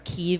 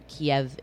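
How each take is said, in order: First: The name is said with Ukrainian vowels. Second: The name is said with Russian vowels. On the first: "Kiev is how you say it in Ukrainian" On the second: "Kiev is how you say it in Russian"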